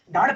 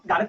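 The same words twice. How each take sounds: First: Said in the usual way. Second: गार्ड loosened into two syllables, gaa-rad; गार्ड said as "gaarad"; uneducated pronunciation. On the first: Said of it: "अशिक्षा यानी जो कम पढ़े लिखे". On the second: Shown as a demonstration. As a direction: break up the final cluster of गार्ड with a vowel. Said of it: "कम पढ़े लिखे लोग होते हैं".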